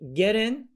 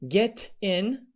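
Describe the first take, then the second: First: The t is a soft d sound. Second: The t is a clear t sound. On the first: "get in American" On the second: "get in British"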